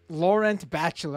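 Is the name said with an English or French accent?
English. The name is said with English sounds. The speaker calls it wrong.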